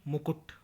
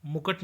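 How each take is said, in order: First: Said in the usual way. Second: मुकुट with a in the second syllable; mispronunciation. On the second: Shown as a demonstration. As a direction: say mu-kaṭ for मुकुट. (मुकुट को मुकट बोलें) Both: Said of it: "नहीं".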